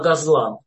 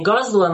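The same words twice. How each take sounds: First: The stress falls where Hebrew places it. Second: The stress falls where Yiddish places it. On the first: The speaker calls it right. "На иврите просто ударение смещается" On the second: The speaker calls it wrong. "Не газлан"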